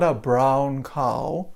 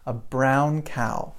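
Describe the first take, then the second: First: The ow vowel is not the American one. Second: The ow vowel is the American one. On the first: The speaker calls it wrong. "That is not American English" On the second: The speaker calls it right. "That's the sound we want"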